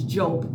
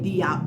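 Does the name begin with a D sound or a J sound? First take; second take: J sound; D sound. First: The name begins with a J sound. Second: The name begins with a D sound. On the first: The speaker calls it right. "but it's Jope. the D I is pronounced as J" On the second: The speaker calls it wrong. "some people say Diop"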